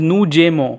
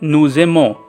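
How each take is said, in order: First: The middle consonant is a hard J sound. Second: The middle consonant is a soft Z sound. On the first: The speaker calls it wrong. "it is written as Nujemo" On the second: The speaker calls it right. "kindly make it a J bit Z. It will sound as Nuzemo"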